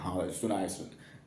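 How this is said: It is mumbled faintly inside the mouth.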